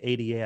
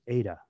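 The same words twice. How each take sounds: First: It is spoken as three separate letters. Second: It is spoken as a single two-syllable name. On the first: The speaker calls it wrong. "When I hear people say ADA, I just kind of go, ooh" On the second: The speaker calls it right. "I pronounce it Ada because it's named after a person"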